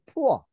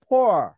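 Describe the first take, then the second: First: "poor" said Korean-style as pu-eo, two syllables; Konglish pronunciation. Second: "Poor" held long, the vowel close to o, one syllable; long native pronunciation. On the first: Father showing his son the old Korean-style "poor". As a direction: say "poor" the Konglish way, puh-oh with a u glide. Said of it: "poor 이렇게 발음했어요". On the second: Teacher modelling a long o "Poor" for the class to copy. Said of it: "오라고 발음하시면서 길게". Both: Shown as a demonstration.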